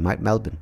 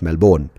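First: The final syllable is reduced, like 'bon' in Bourbon. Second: The final syllable is full, like 'born'. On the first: The speaker calls it right. "You got to say that properly" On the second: The speaker calls it wrong. "not Melbourne"

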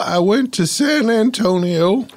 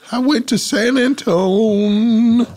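First: The full name is said, ending in -io. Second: The name is shortened, dropping the final -io. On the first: The speaker calls it wrong. "You don't have to say the EO" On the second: The speaker calls it right. "There you go"

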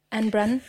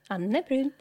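First: It is said with an American/English accent. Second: It is said with a Swedish pronunciation.

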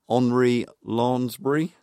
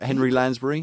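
First: The name is said with a French accent. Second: The name is said with an English accent.

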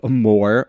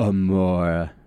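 First: The word is said in a plain English accent. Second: The word is said in a French accent.

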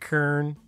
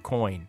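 First: The vowel is an 'er' sound. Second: The vowel is an 'oi' sound.

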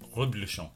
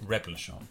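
First: The word is pronounced in a French way. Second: The word is pronounced in an English way. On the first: The speaker calls it right. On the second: The speaker calls it wrong.

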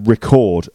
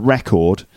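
First: The stress falls on the second syllable. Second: The stress falls on the first syllable. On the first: It is a verb: to capture audio or video. "the verb is I'm going to record another podcast" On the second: It is a noun: something kept or written down. "The noun is on the record"

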